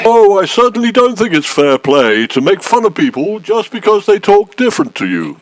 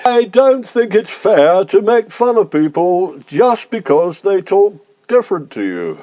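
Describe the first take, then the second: First: Posh voice at normal pace; putting on posh. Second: Slow, posh and deliberate; slow repeat. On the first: Complainant objecting to being mocked, in a put-on posh voice. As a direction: talk proper, at an everyday speed. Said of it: "You know, talking proper like". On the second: Complainant repeating his objection for police, slowly in posh voice. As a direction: repeat it slowly, talking proper. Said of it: "say that again a bit more slowly". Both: Acted.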